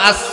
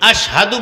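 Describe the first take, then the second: First: The word is said with an 's' sound. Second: The word is said with a 'sh' sound. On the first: "সিন উচ্চারণ হইতো" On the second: "শিন উচ্চারণ হয় না"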